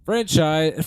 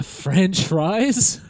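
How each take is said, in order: First: Franchise said properly as fran-chize; careful corrected franchise. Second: Franchise said like French fries, rising; fumbling franchise with a rising question; mispronounced franchise. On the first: Shown as a demonstration. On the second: Real, not acted. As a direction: trip over franchise so it comes out like French fries. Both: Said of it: "I almost said French fries".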